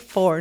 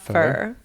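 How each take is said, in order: First: The vowel is a full rounded 'or' sound. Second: The vowel is reduced to an 'er' sound. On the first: The speaker calls it right. "I need to say four" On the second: The speaker calls it wrong. "not fur"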